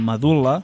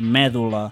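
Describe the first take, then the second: First: The stress falls on the second-to-last syllable. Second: The stress falls away from the second-to-last syllable. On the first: The speaker calls it right. "fent-les tal com són, planes" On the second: The speaker calls it wrong. "no haurem de dir mèdula"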